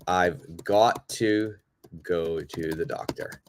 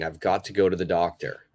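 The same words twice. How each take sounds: First: Slow clear teaching model. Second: "I've got to go to the doctor" run together fast; quick natural delivery. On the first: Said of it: "I could say". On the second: Teacher shows the natural speed, quick. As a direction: rattle it off like everyday speech. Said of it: "Same meaning". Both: Shown as a demonstration.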